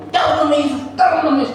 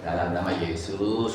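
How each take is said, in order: First: Mock high-pitched frantic invocation; hammed-up urgent cry; shouting pastor. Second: Low, soft, simple prayer; calm and understated; restrained invocation. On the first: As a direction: imitate a pastor yelling a prayer. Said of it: "banyak pendeta begitu kan". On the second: Shown as a demonstration. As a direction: say it quietly, with no strain. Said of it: "gitu aja udah cukup".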